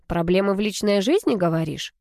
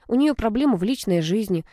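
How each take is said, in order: First: «жизни» rises in a querying repeat; questioning echo. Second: Said in the usual way. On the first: A narrator's reading. Brother checking what he heard, questioning rise on «жизни». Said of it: "переспросил Ромка".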